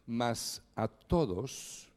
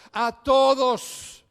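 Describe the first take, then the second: First: Said in the usual way. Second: "todos" slow, higher and louder, hit hard; stress on todos. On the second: Shown as a demonstration. Preacher stressing the word for the congregation, emphatic "todos". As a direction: lean on "todos" and stretch it out. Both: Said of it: "recalca la palabra todos".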